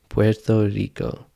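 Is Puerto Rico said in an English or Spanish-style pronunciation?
Spanish. It is said with an attempted Spanish pronunciation. "let me try"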